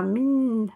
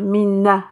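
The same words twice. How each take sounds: First: The syllable is said thinned, with a narrow mouth. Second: The syllable is said with the mouth opened wide. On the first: The speaker calls it right. "On va dire min. On va l'amincir" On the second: The speaker calls it wrong. "on va pas ouvrir la bouche min"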